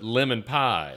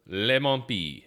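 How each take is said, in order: First: It is said with plain English pronunciation. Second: It is said with French-style pronunciation. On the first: "I would pronounce it Lemon Pie" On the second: "how do you pronounce that in French?"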